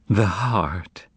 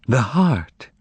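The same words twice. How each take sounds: First: Unvoiced hollow whisper. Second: Exclaim. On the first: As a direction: breathe it out, stunned and empty. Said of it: "she repeated in a hollow voice". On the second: Acted. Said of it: "exclaimed Margarita".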